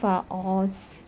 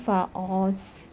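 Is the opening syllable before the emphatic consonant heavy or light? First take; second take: heavy; heavy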